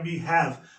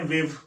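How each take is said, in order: First: It is said as two full words. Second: It is said as one contracted word.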